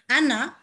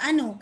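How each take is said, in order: First: The word ends with the vowel a. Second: The word ends with the vowel u. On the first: The speaker calls it right. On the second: The speaker calls it wrong.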